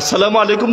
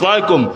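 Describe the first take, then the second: First: The greeting is said in full. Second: The greeting is clipped into one short word. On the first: The speaker calls it right. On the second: The speaker calls it wrong.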